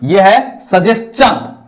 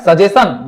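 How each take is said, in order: First: सजेशन said slowly with a ch sound: sa-jes-chan; slow correct सजेशन with ch; right pronunciation. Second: सजेशन said the wrong way, with a plain s sound; wrong reading of सजेशन; wrong pronunciation. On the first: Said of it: "नहीं, ये है सजेशन". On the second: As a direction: give the mistaken सजेशन, with s not ch. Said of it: "नहीं". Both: Shown as a demonstration.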